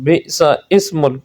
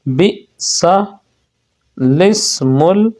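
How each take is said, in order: First: The second word starts without an L sound. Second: The second word starts with an L sound. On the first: The speaker calls it wrong. "अक्सर लोग बिसा इस्मुल पढ़ देते हैं, तो ये गलत है" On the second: The speaker calls it right. "लाम को ज़ेर देकर पढ़ें"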